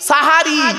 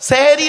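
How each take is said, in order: First: The first vowels are 'a' sounds: sah-ha-ri. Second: The first vowels are 'e' sounds: seh-eh-ri. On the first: The speaker calls it right. "দন্তেশয় একার নয়, দন্তেশয় আকার" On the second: The speaker calls it wrong. "ওটা ভুল শব্দ, সেহেরি নয় শব্দটা"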